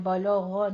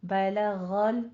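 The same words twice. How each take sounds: First: बलग़ with a thick, heavy l; wrong heavy lam. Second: बलग़ल slowly with both l sounds thin and light; thin lam, slow. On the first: Teacher shows the wrong heavy lam in बलग़. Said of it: "बलग़ नहीं कहना है". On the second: Teacher models the correct thin lam, slowly. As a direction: draw out बलग़ल with light l's. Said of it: "लाम बारीक रखना है". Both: Shown as a demonstration.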